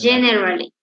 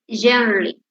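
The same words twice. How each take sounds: First: Every syllable is fully pronounced. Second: The middle vowel is dropped, said quickly. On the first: "Before R" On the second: "Becomes generally"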